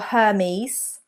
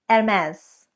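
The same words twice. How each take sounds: First: The H at the start is pronounced. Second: The H at the start is silent. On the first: The speaker calls it wrong. "It is not Hermes" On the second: The speaker calls it right. "there is a silent H there"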